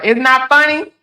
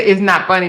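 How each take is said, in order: First: Higher, louder, rising disbelief; incredulous echo. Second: Said in the usual way. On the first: Real, not acted. Echoing a viewer's comment back, incredulous rising. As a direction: throw the words back in disbelief.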